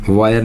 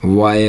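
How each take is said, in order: First: वायर with the r sounded; wrong way, r spoken. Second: वाय with the r dropped, ending on ए; right way, no r. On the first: Teacher shows the class the wrong way, वायर with r. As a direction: says वायर the wrong way, r rolled. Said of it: "वायर नहीं होता". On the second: Teacher gives the class the right way, वाय without r. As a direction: says वाय, no r at the end. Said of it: "वाय होता है". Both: Shown as a demonstration.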